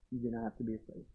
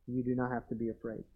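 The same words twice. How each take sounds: First: Hushed, breathy repeat; soft whisper of comfort; whispered reassurance. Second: Confident reassurance. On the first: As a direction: lean in and whisper it to them. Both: Shown as a demonstration. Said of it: "I can say this with confidence".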